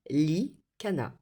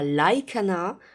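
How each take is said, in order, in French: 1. La première voyelle se prononce « ee ». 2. La première voyelle se prononce « eye ». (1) "ça se dit Likana" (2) "ça ne se dit pas Laikana"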